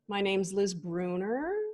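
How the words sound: The pitch rises at the end like a question. The speaker sounds unsure of the statement.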